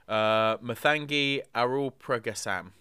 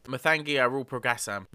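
First: The name is said hesitantly and carefully. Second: The name is said confidently and firmly. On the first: The speaker calls it wrong. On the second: The speaker calls it right.

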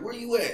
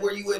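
First: The question sounds light and eager. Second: The question sounds heavy and serious. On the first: "And you could just tell she want to see you" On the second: "it get a little heavier"

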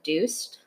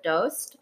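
First: The name is said the Iranian Farsi way. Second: The name is said the Afghan Dari way. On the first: "My mom's from Iran. They pronounce it Doost" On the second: "My dad's from Afghanistan. They pronounce it Doost"

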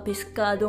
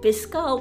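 First: The d sound before the last vowel is pronounced. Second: The d sound before the last vowel is dropped. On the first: The standard way of saying the word. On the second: An informal southern way of saying the word.

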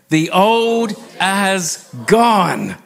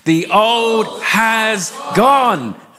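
First: It is said mildly, with little force. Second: It is said strongly, with more force.

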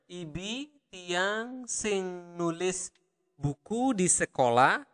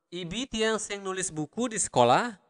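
First: It is said slowly. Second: It is said at normal speed.

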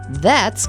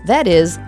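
First: The two words are joined into one syllable. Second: The two words are said separately in full. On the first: The speaker calls it right. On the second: The speaker calls it wrong.

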